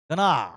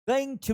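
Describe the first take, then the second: First: The words are reduced to a single blend. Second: Both words are said fully and separately.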